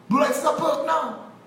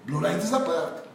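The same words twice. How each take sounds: First: High-pitched call, imitating the crowd; mock crowd acceptance. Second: Said in the usual way. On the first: Crowd accepting a minister's privilege, mocking high-pitched call.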